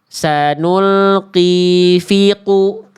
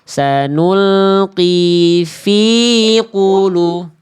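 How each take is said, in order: First: The vowel in fi is cut short. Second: The vowel in fi is held long. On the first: The speaker calls it wrong. "Bukan sanulqi fiqu. Terlalu cepat ke ku-nya" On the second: The speaker calls it right. "Coba diayunkan fi-nya ya"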